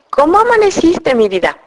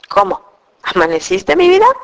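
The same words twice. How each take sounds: First: It is said in a loving, tender tone. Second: It is said in an annoyed, weary tone.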